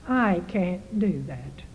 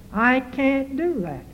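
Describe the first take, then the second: First: Softer and slow, weighing each word; soft, slow resolve. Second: Said in the usual way. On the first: Acted. Preacher asks congregation to say it, soft and slow. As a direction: say it quietly, as if deciding.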